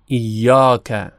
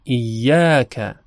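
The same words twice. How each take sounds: First: ایاک with a Persian rounded alef, slow; wrong Persian vowel. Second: ایاک with an open Arabic alef, slow; correct Arabic vowel. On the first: Teacher showing the wrong reading of ایاک, Persian vowel. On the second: Teacher showing the correct reading of ایاک, open alef. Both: Shown as a demonstration.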